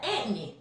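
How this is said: It is said in a New Orleans accent.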